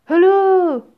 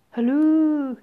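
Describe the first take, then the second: First: Much higher, much louder hello; prim phone hello. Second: Raised, louder phone greeting; prim phone hello. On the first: Genie repeats phone greeting. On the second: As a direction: answer a pretend phone primly. Genie primly answers imagined phone. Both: Acted.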